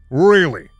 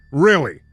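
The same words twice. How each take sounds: The two takes are said the same way.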